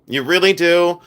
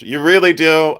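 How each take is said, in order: First: "really" pitched up higher and pushed; playful higher "really"; higher teasing stress on really. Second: "really" leaned on, teasing; playful push on "really"; teasing stress on really. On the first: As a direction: land "really" as a mock accusation. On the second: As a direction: tease them with "really". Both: Acted. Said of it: "you really want me to go to jail".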